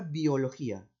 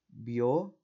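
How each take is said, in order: First: Said in the usual way. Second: "Biología" as bio, lo, gí, a, long pauses between; syllable by syllable. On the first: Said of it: "La palabra biología". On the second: Shown as a demonstration. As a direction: break "Biología" into four detached syllables. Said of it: "Cómo lo silabeo".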